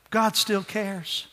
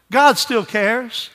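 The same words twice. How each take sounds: First: Soft, slow God still cares, falling; hushed, slow reassurance; tender assurance. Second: Slow, ringing repeat; emphatic assurance. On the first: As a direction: say it gently, like comfort. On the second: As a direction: lift it up as a declaration. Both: Shown as a demonstration.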